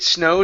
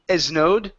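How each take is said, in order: First: The word starts directly with an S sound. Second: An extra eh vowel comes before the S. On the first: The speaker calls it right. "If it snowed instead of esnowed" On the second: The speaker calls it wrong. "take off the eh in front of it"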